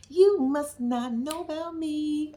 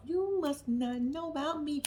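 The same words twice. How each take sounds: First: Very slow, each word spaced out; slow emphatic warning. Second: Quiet slow warning. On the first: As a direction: drag the warning out slowly. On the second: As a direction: murmur it slowly as a warning. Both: Shown as a demonstration.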